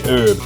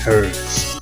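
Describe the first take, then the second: First: The word starts with a vowel, no H sound. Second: The word starts with a clear H sound. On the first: The speaker calls it wrong. "I will never say herb" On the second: The speaker calls it right. "I will say herbs because of the fucking H"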